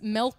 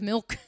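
First: The word has a local-style pronunciation. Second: The word has a standard pronunciation. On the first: This is how the character says it. "he says milk" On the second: This is how people usually say it. "instead of milk"

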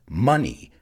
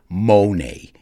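First: The first vowel sounds like 'uh'. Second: The first vowel sounds like 'oh'. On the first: The speaker calls it right. "It's money, like honey and funny" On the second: The speaker calls it wrong. "you must not pronounce it money"

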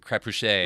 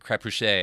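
First: The name is said with a French-style pronunciation. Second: The name is said with a French-style pronunciation.

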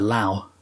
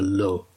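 First: The name rhymes with 'cow'. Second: The name rhymes with 'go'. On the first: The speaker calls it wrong. "Some people say Dr" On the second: The speaker calls it right. "I believe the correct pronunciation is Dr"

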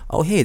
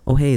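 First: The voice sounds clear and full. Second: The voice sounds boomy and bassy. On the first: The speaker calls it right. "this is where it sounds best" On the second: The speaker calls it wrong. "this sounds kind of like a bassy"

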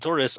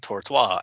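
First: The word has a plain American pronunciation. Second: The word has a French-style pronunciation. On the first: "instead of saying tortoise" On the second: "I say tortoise, and they get very confused"

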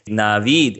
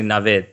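First: The second syllable has a long vowel. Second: The second syllable has a short vowel. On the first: The speaker calls it wrong. "It's even better when you say Navid instead" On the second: The speaker calls it right. "with a short kind of I to it"

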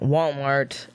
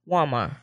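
First: Every syllable and sound is fully pronounced. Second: Several syllables and sounds are dropped. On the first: "instead of saying, like" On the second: "they just drop. ... They just drop a lot of syllables and sounds"

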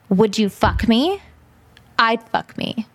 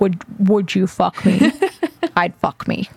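First: It is said in a normal voice. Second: It is said in a very low, creepy voice.

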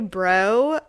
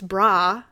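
First: The word ends in an 'oh' vowel. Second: The word ends in an 'ah' vowel. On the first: This is the mainland way of saying it. The speaker calls it wrong. "when they say bro" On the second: This is the Hawaiian way of saying it. The speaker calls it right. "no, it's bra. You don't say bro"

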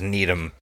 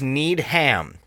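First: The final syllable is weak and reduced. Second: The final syllable is said clearly as ham. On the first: The speaker calls it wrong. "I thought his last name was Needham" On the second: The speaker calls it right. "You have to enunciate the ham"

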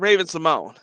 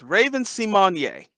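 First: The surname is said with two syllables. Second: The surname is said with three syllables. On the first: The speaker calls it wrong. "Her name is not [name]" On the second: The speaker calls it right. "It's Raven See-Mon-Yay"

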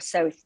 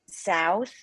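First: It has a Canadian closed vowel. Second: It has an American open-mouthed vowel.

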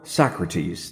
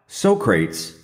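First: The name is said in the usual standard way. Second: The name is said in a jokey, movie-style way.

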